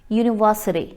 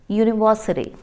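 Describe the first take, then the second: No difference in how they are said.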